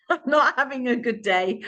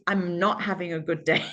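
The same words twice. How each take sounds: First: Laughing through the line, pitched higher. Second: Said in the usual way. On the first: Retold or imitated. Retelling what she told Daniel, laughing. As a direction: laugh it out at herself. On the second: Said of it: "I just said".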